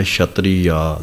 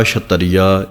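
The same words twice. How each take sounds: First: ਛਤਰੀਆ as slow "chhatri-aa", long final aa; lengthened ending. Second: ਛਤਰੀਆ as "chhat-tariya", extra a after t; wrong reading. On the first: Teacher modelling correct reading, ਛਤਰੀਆ with long "aa" ending. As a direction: say "chhatri", then draw out aa in ਛਤਰੀਆ. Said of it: "ਛਤਰੀਆ ਲੰਮਾ ਕਰਕੇ". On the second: Teacher showing impure reading, ਛਤਰੀਆ as "chhat-tariya". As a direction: say ਛਤਰੀਆ with "tar" in the middle. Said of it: "ਇਹ ਪਾਠ ਸ਼ੁੱਧ ਨਹੀਂ ਹਨ". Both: Shown as a demonstration.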